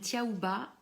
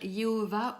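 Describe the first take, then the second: First: The name begins with a T sound. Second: The name begins with a Y sound. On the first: The speaker calls it wrong. "nous, on le prononce de cette manière-là" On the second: The speaker calls it right. "de la bonne manière"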